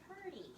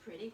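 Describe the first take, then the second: First: The first syllable is said as 'pur'. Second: The first syllable is said as 'prih'. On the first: This is the local form they use. "we say purty" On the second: This is the standard form they do not use. "We don't say pretty"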